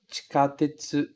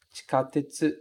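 Both takes have the same delivery.

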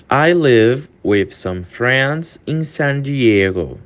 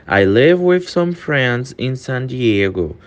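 First: Very slow, word by word; slow model sentence; slow demo. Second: Said in the usual way. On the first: Shown as a demonstration. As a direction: read it slowly for learners. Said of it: "repeated faster". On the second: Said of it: "slow take just before".

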